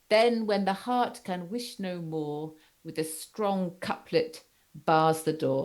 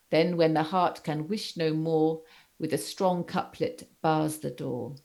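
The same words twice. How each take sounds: First: Slow, measured recitation of the couplet; weighty poetic reading; recited verse. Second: Said in the usual way. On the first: Shown as a demonstration. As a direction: read the lines with a slow even beat. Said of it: "Bell Scott says". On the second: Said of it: "you've got that, that quotation here".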